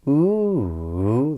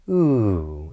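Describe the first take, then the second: First: The pitch rises, then falls, then rises again. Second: The pitch falls steadily through the sound. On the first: It signals the talker has not finished yet. "this extra circumflex inflection, this ooh, this rise, fall, rise" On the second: It marks a statement, command or sentence end. "this downward intonation would be"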